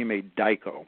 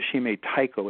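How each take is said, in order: First: The second word starts with a D sound. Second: The second word starts with a T sound. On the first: The speaker calls it right. "sometimes the T changes to D" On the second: The speaker calls it wrong. "So it's not a shime taiko"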